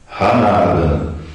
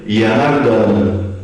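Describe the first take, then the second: First: It begins with a harsh h sound. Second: It begins with a y sound. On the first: This is how a Spanish reader would read the spelling. "quando você lê em espanhol, você leria Ranardana" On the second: This is how Brazilian readers read the Spanish spelling. "leram Yanardana"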